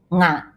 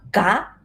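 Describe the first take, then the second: First: "nga" opening on a nasal ng; "nga" with ng as in singer. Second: "ga" with a hard g; "ga" without any nasal sound. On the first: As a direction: say "nga" through the nose. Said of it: "some people pronounce nga". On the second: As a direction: say "ga" with a plain stopped g. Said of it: "some people pronounce ga". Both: Shown as a demonstration.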